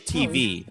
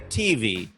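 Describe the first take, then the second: First: It is said the white American way. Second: It is said the Black American way.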